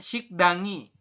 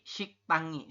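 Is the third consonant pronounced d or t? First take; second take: d; t. First: The third consonant is a d sound. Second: The third consonant is a t sound. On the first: The speaker calls it wrong. "bukan sikdangi" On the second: The speaker calls it right. "tapi siktangi seperti itu"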